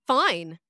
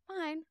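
First: "Fine." said low and firm, pitch falling. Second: "Fine." said soft and higher, pitch falling; softer fine. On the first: Showing the tone that means it's fine, "Fine." low and firm. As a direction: lean on "Fine." low and pointed. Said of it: "then you would say". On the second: Showing the wrong tone, "Fine." soft and high. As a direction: drop "Fine." softly up high. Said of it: "You wouldn't say". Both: Shown as a demonstration.

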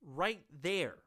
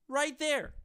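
First: Said in the usual way. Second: "Right there" said higher and louder, hitting "Right"; emphatic repeat. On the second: Real, not acted. Host hammering the point home to viewers, emphatic. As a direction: punch "Right there" harder the second time.

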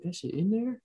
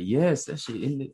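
First: Very high, rising question; incredulous double-take, pitched way up; surprised disbelief. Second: Raised pitch on an eager yes; delighted fan spotting something; excited recognition. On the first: Fan doubting he saw the Thanos chopper, surprised. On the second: Fan spotting the Thanos chopper, excited. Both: Retold or imitated. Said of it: "I'm surprised they put it in there".

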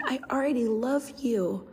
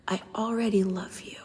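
First: Said in the usual way. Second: A soft, voiceless whisper; whispered confession. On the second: Retold or imitated. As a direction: breathe it like a shy child's secret. Child confides a secret.

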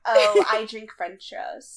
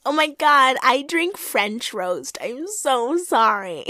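First: Slow, dreamy airhead; airheaded Monique. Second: Slow, airy mock Monique; airheaded Monique. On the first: Retold or imitated. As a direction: drawl it like an airhead. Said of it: "explains it". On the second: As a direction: stretch it out like an airhead. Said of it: "She's like".

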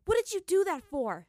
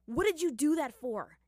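First: Sharp, high angry demand; heated demand. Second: Higher, louder snarled question. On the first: Katara furiously demands why Zuko kissed her, shouting. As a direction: Katara rounds on Zuko, much louder. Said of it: "she demanded of him heatedly". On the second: Aang snarls Katara's question back at Zuko, louder. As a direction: spit it back at him. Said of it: "Aang snarled". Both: Acted.

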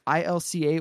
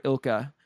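First: I L C A, each letter named in turn; spelled out letter by letter. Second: Ilka, run together like a name; pronounced as one word. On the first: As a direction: say I L C A as four separate letters. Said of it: "I don't know if it's". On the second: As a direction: say ilka as a two-syllable word, IL-kuh. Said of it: "they pronounced it ilka before". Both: Shown as a demonstration.

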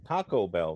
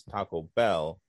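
First: Taco Bell with the weight on Taco; stress on Taco. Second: Taco Bell with the weight on Bell; stress on Bell. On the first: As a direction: punch "Taco", let "Bell" follow lightly. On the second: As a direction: punch "Bell" after a lighter "Taco". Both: Retold or imitated. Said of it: "they just did five minutes of Taco".

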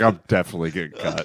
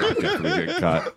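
First: Fast laughing aside, a bit lower; laughing panic. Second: Fast, lower, laughing mock despair; laughing panic. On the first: Retold or imitated. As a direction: rush it through a laugh. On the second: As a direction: rattle it off laughing at the doom. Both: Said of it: "I was like".

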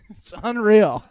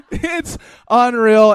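First: Laughing. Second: Much louder, slow "unreal" through laughter; loud laughing disbelief. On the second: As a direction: belt it out laughing, can't believe it. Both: Real, not acted. Laughing over the liquor story.

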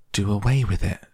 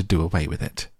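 First: Understated shriek of disbelief; a touch of shocked outcry; mild shriek. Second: Said in the usual way. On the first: A narrator's reading. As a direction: echo it back in appalled protest, only mildly raised. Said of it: "shrieked Fern".

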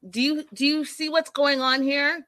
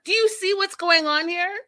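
First: Pleading, pitch rising, imitating a son losing it; upset plea. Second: Higher, louder upset plea. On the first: Son losing it with his mother, upset plea. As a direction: ask it exasperated, building up. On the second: Retold or imitated. Son losing it with his mother, higher exasperated plea. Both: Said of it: "Farouk loses it".

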